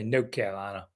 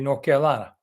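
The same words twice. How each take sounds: First: It is said imitating the speaker's dad. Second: It is said in the speaker's own normal way.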